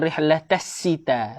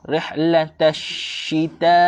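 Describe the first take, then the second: First: The word is said with a plain s sound. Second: The word is said with a sh sound. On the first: The speaker calls it wrong. "Rihlatassita itu dibaca dengan huruf sin. Salah" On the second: The speaker calls it right. "Sepatutnya bunyi dengan huruf shin"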